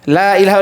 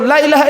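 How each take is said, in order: First: The first vowel is held long. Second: The first vowel is cut short. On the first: It negates any other god. The speaker calls it right. "Allahnya dipanjangkan" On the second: It no longer negates. The speaker calls it wrong. "Kalau dipendekkan lamnya salah"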